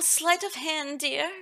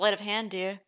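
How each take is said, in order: First: It is said in a sweet, homey voice. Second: It is said flat, with no expression. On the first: The speaker calls it wrong. "I gave her like such a like, oh, the, the typical country mom voice" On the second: The speaker calls it right. "Sweet lady talks completely deadpan"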